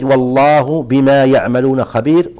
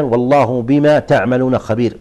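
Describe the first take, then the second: First: "يعملون" with a ya at the start; قراءة بالياء. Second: "تعملون" with a ta at the start; قراءة بالتاء. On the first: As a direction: slowly recite "يعملون", opening on the y sound. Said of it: "قد ترد في الكلمة الواحدة أكثر من قراءة". (نطق «يعملون» بالياء في أولها) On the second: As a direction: recite "تعملون", opening on the t sound. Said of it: "وأحيانًا". (نطق «تعملون» بالتاء في أولها) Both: Shown as a demonstration.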